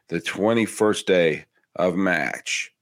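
It is said in a New England accent.

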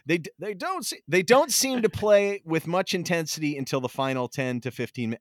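It is said in a put-on old man voice.

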